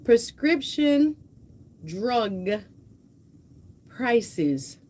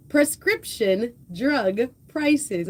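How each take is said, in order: First: Slow, spaced-out "Prescription drug prices."; deliberate, one word at a time: "Prescription", "drug", "prices.". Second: Careful redo. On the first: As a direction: pause between each word and say "prices" clearly, not "crisis". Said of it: "I'm trying to say, like, prices and crisis". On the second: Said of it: "I'm trying to say". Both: Shown as a demonstration.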